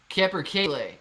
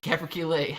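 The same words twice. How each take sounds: First: The stress is on the third syllable. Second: The stress is not on the third syllable.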